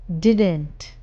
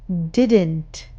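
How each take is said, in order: No difference in how they are said.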